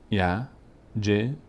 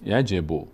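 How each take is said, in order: First: یجب in three slow, separate syllables; یجب sounded out piece by piece. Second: یجب read as one connected word; یجب blended into a single run; joined up. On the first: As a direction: leave a clear pause after each syllable of یجب. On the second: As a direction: link all the syllables of یجب without a pause. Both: Shown as a demonstration.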